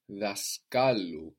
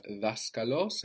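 First: Daskalu with KA stressed; stress moved to middle. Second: Daskalos with DAS stressed; stress on first syllable. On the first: Teacher shows learner the moved accent, stress on KA in daskalu. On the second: Teacher shows learner where the accent starts, stress early in daskalos. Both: Shown as a demonstration. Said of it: "So there we move the accent".

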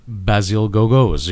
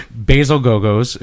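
First: "Basil Gogos" said slowly as BAZZ-il GO-gos, short a; "Basil Gogos" with short a and a hard k-like G; careful name try. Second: "Basil Gogos" as BAY-zil GOH-gohz, long ay; "Basil Gogos" with a Canadian long ay vowel; Canadian pronunciation. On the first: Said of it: "I can never say his name right". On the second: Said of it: "how I say it with my Canadian accent". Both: Shown as a demonstration.

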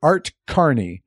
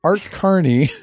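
First: "Art Carney" said slowly and deliberately; correcting the name. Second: "Art Carney" higher with a laugh; laughing repeat. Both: Shown as a demonstration. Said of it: "Who's Art Garney?".

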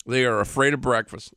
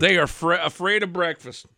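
First: Said in the usual way. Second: Incredulous. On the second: Real, not acted. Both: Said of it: "Hold up, hold up".

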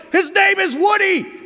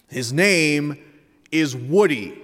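First: High, full-throated acted kid's scream. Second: Measured, emphatic correction, a pause mid-sentence; telling his brother. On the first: Older son to his brother in a toy argument, screaming. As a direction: scream it at your little brother in exasperation. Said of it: "Ethan screams". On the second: Retold or imitated. Older son correcting his little brother, insistent but contained. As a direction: set your brother straight, firmly but not yelling. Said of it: "Ethan tells his brother".

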